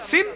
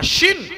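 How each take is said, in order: First: সিন opening on a sharp s; S sound in সিন. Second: শিন opening on a broad sh, higher; SH sound in শিন. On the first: Showing how the letter is pronounced, সিন with s. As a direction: make it s, not sh, in সিন. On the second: Showing the contrasting letter, শিন with sh. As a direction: make it sh, not s, in শিন. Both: Shown as a demonstration. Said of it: "সিনের উচ্চারণ সিন".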